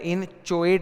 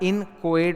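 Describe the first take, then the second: First: The middle consonant is a ch sound. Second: The middle consonant is a hard k sound. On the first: The speaker calls it wrong. "इन चोएट नहीं होता है" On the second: The speaker calls it right. "इसका उच्चारण इन कोएट होता है"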